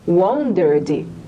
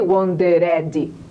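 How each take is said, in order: First: The ending is only a 'd' sound. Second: The ending is an extra 'ed' syllable. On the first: The speaker calls it right. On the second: The speaker calls it wrong.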